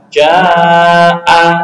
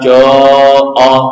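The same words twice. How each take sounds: First: The long a vowel is light and thin. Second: The long a vowel is heavy and thick. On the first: The speaker calls it right. "dibaca tarkib apabila huruf pendahulunya juga tipis" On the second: The speaker calls it wrong.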